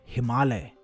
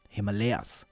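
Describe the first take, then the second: First: It is pronounced the Hindi way. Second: It is pronounced the English way. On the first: "what I would call it if I were speaking Hindi" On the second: "like a native English speaker would"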